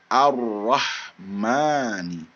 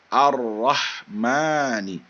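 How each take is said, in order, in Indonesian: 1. L menyatu menjadi R ganda. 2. L menyatu menjadi R ganda.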